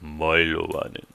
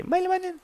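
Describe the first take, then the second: First: Deep, slow macho imitation. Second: Sudden very high squeak; high squeaky mimicry. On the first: Streamer copying the alert's macho voice, deep and slow. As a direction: draw it out low and manly. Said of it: "una pinche voz de macho". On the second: Streamer showing the alert voice's sudden flip, high squeaky mimicry. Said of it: "de repente tiene una pinche voz".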